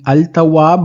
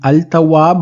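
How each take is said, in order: First: The L sound is pronounced before the T. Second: The L sound is pronounced before the T.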